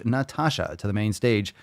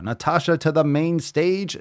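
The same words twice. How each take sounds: First: Said in the usual way. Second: Rising showman call to the stage; announcer call. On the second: Shown as a demonstration. Summoning the listener Natasha to the stage, announcer style. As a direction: call her up like a game-show host. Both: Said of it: "calls her up twice".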